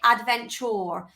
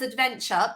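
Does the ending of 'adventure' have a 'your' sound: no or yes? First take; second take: yes; no. First: The ending is said with a 'your' sound. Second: The ending is said without a 'your' sound. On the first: This is the Queen's English pronunciation. "if you pronounce it so the Queen's English, you'd say adventure. So it's got the your sound" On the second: This is the speaker's everyday pronunciation. "So I say it as adventure"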